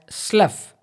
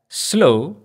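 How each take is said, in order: First: The word rhymes with tough. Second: The word rhymes with plow. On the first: It means to remove the skin. "as is in the case of tough" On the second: It means a marshy land. "as is in the case of plow"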